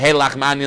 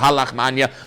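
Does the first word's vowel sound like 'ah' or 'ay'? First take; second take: ay; ah. First: The first word has an 'ay' vowel. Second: The first word has an 'ah' vowel. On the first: This is the form used in one community's tradition. "In Chabad we say" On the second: This is the form used in other traditions. "instead of"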